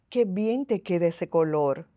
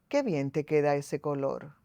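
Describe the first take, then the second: First: The compliment sounds honest and sincere. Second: The compliment sounds insincere, with another intention.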